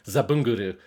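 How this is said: The name is said with Japanese pronunciation. "the Japanese voice accent"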